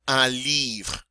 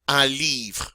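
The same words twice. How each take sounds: Both takes have the same delivery.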